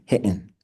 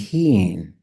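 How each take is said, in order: First: The word is said with no tone. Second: The word carries a high tone. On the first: "in Tanta it would be hitten" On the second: "in Southern Tlingit would be heen"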